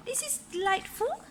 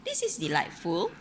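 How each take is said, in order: First: High, bright lady's voice; Missus Armitage voice. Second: Said in the usual way. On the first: A narrator's reading. Parent reading aloud, voicing Missus Armitage, high and prim. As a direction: lift the voice up for the lady. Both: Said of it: "said Missus Armitage".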